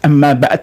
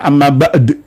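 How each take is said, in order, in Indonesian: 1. Konsonan terakhirnya terdengar seperti t. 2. Konsonan terakhirnya adalah d yang memantul. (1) "antara dal dan tak itu mirip"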